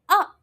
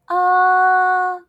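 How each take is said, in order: First: The pitch falls sharply from high to low. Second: The pitch stays high and level. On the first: "So it drops" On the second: "I'm going to say all four tones"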